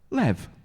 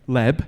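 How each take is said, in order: First: The word ends with a v sound. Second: The word ends with a b sound. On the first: The speaker calls it right. "it actually says, when you pronounce it in Hebrew" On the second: The speaker calls it wrong. "rather than it saying Leb"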